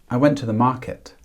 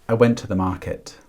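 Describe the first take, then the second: Both takes have the same delivery.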